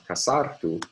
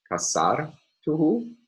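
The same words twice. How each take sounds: First: Kasartu with sar stressed, falling at the end; kasartu, sar stressed, tune falling. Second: Kasartuhu, slowed, stress on sar, rising at the end. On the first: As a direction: say kasartu briskly, weight on sar. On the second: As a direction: say kasartuhu slowly with the weight on sar. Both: Shown as a demonstration. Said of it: "we can contrast stress assignment in the words".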